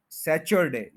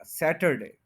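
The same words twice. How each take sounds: First: सैचरडे with a "ch" in the middle; mispronounced Saturday. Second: सैटरडे with a clear hard t; Saturday with T. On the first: Teacher showing learners the wrong word, mispronounced सैचरडे with "ch". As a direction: say सैचरडे, "ch" replacing the t. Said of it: "ये गलत है". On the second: Teacher correcting learners' Saturday, सैटरडे with a clear t. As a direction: say सैटरडे, t in the middle, no "ch". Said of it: "इसको ठी बोला जाएगा". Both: Shown as a demonstration.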